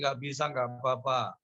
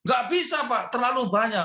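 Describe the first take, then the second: First: Said in the usual way. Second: High, loud protesting voice; imitating the refusal. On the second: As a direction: refuse flatly, voice pitched up. Congregant refusing to forgive. (menolak dengan suara tinggi dan keras)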